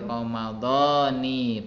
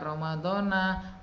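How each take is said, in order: First: The word ends with an 'i' vowel. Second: The word ends with an 'a' vowel. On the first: The speaker calls it right. "Niat yang paling betul bukan dibaca na, tapi dibaca ni" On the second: The speaker calls it wrong. "dibaca Ramadhana. Mana yang betul?"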